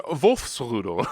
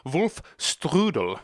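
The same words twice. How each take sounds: First: Wolfsrudel in German style, no T before RUDEL; Wolfsrudel, amused German pronunciation without "strudel"; corrected German word. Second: Wolfstrudel drawn out with a strudel ending; mistaken German word. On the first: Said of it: "I mean Wolfsrudel". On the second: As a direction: say Wolfstrudel slowly, with a T before RUDEL. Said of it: "No, not". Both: Shown as a demonstration.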